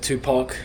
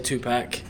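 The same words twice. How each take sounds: First: The name is said with the standard pronunciation. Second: The name is said with an Australian pronunciation. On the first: The speaker calls it right. "instead of [name]" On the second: The speaker calls it wrong. "I know I say [name]"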